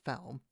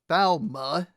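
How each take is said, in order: First: The name ends on a consonant sound. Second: The name ends with a final vowel sound. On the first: The speaker calls it wrong. "not Falm" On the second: The speaker calls it right. "They're in Falma"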